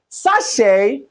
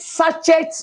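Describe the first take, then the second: First: The final t sound is silent. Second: The final t sound is pronounced. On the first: The speaker calls it right. "I will say sachet of pure water" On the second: The speaker calls it wrong. "I won't call it sachet of pure water"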